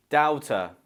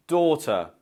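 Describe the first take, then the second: First: "doubter" as DOW-ter; ow sound in "doubter"; wrong daughter. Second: "daughter" as DAW-tuh; British "daughter", long aw and schwa; correct daughter. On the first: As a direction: mispronounce daughter as "doubter", with an ow vowel. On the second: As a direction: say "daughter" with a door vowel. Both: Shown as a demonstration. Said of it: "Option B".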